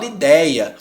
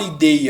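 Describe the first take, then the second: First: "ideia" with an open E, as "idéia"; open diphthong. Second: "ideia" with a closed E, as "idêia"; closed ÊI in the middle of "ideia"; closed diphthong. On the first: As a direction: say "ideia" with the middle vowel wide open. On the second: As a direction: say "ideia" with a narrow close-mid E. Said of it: "aberto. Eu não falo ideia". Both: Shown as a demonstration.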